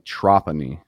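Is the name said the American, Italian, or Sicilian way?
Sicilian. The name is said with a Sicilian pronunciation. This is how people in Sicily say the name. "if you go over to Sicily, they say Trapani"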